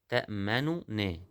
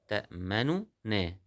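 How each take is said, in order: First: Two separate n sounds, the first with u. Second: The same.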